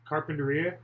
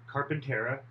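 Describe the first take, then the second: First: The name ends with a 'teria' sound. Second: The name ends with a shorter 'tera' sound. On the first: This is the usual name of the place. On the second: Radio and news traffic reporters say it this way.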